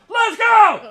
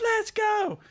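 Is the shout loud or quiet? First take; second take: loud; quiet. First: It is shouted loudly with full voice. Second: It is said quietly, a weak attempt at yelling. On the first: This is what real yelling is. The speaker calls it right. "That's loud" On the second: Someone thinks they are yelling but is not. The speaker calls it wrong. "when they yell, they get quieter"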